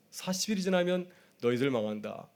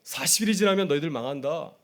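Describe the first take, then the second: First: Playfully. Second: Said in the usual way. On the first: Retold or imitated. Prophet teasing the city of Nineveh, playful warning. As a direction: toss off 망한다 like a cheeky joke. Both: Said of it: "이렇게 장난스럽게 복음을 전하였는데".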